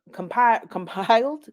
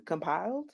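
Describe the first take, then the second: First: Compiled said with a real laugh, pitched up and louder. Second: Said in the usual way. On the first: Real, not acted. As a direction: laugh breaks into the word. Laughing through a stumbled word.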